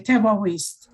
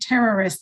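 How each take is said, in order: First: The r is a guttural Israeli r sound. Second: The r is a soft American r sound. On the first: "they say terrorist" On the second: "Israelis don't say terrorist"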